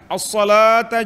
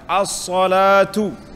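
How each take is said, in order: First: The first word ends with an 'a' vowel. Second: The first word ends with a 'u' vowel. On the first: It urges people to come and gather. "Kalau kita baca bahagian atas, dia panggil sebagai ighra'" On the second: It is the subject of a plain statement. "dibaca dengan baris hadapan"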